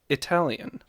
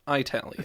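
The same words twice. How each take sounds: First: The first vowel sounds like 'ih'. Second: The first vowel sounds like 'eye'. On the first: The speaker calls it right. "the adjective corresponding is Italian" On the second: The speaker calls it wrong. "not Italian"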